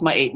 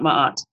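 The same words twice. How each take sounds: First: "my eight" said as two words, second rhyming with late; correct pronunciation. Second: "my aunt" with an open AH instead of AY; mispronunciation shown. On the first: Teacher showing viewers how the name is pronounced, careful correct pronunciation. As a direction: say "my eight" with a long AY ending. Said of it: "it's supposed to be pronounced". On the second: Teacher showing viewers the rejected way to say the name, mispronounced on purpose. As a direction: say "my aunt" as ma-AHT, no long AY. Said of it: "supposed to be pronounced my eight, not".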